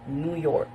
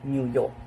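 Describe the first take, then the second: First: It is said in an American accent. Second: It is said in an Australian accent. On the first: "while in American" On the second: "while in Australian"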